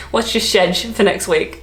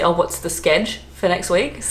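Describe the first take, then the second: First: Schedule cut short to "shedge"; British short form. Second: Schedule cut short to "skedge"; hard k, one syllable, SKEDGE for schedule; Yvette slang. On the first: Trying British slang that doesn't flow, British short form. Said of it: "But you can't say". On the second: Asking a colleague about next week, Yvette slang. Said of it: "sked instead of schedule". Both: Shown as a demonstration.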